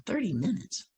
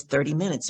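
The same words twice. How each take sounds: First: Softer, higher incredulous question; quiet disbelief, voice lifting at the end; baffled echo. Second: Said in the usual way. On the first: Retold or imitated. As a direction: question it under your breath. Her puzzled thought echoing it.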